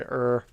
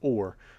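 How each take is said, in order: First: The vowel is a reduced 'er' sound. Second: The vowel is a full 'or' sound. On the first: The speaker calls it wrong. "A lot of times I say er" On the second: The speaker calls it right. "Something I definitely say wrong is or"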